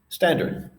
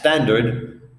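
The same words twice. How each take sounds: First: The word starts directly with the s sound. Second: An extra e vowel comes before the s. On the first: The speaker calls it right. "the correct English pronunciation" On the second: The speaker calls it wrong. "a word pronounced as standard"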